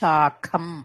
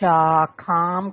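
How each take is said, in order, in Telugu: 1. రెండో అచ్చు హ్రస్వం 'a'. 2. రెండో అచ్చు దీర్ఘం 'aa'.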